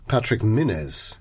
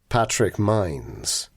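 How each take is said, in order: First: The surname is said in an archaic, exotic way. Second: The surname is said in a plain, everyday way.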